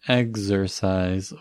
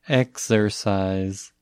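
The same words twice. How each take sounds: First: The x is voiced, sounding like gz. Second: The x is voiceless, sounding like ks. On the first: "Pode ser um som de GZ" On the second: "Ou pode ser um KS"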